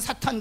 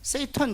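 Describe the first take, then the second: First: It is said with a Korean pronunciation, 'sa-tan'. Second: It is said with an American pronunciation, 'say-tan'. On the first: "우리는 사탄 그러지만" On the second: "미국 사람들은 뭐라고 할까요? 세이탄 그럽니다"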